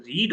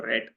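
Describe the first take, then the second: First: First "read" said as "reed", long ee; present-tense pronunciation. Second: Second "read" said as "red", short e; past-tense pronunciation. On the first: Teacher asking how computers tell meanings apart, "read" pronounced "reed". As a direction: make "read" rhyme with need. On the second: Teacher asking how computers tell meanings apart, "read" pronounced "red". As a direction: make "read" rhyme with bed. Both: Shown as a demonstration. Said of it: "you pronounce it differently".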